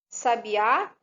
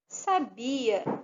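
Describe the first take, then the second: First: The stress falls on the last syllable. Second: The stress falls before the last syllable. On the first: The speaker calls it wrong. "se tivesse acento aqui, se fosse sabiá" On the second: The speaker calls it right. "se eu ler corretamente"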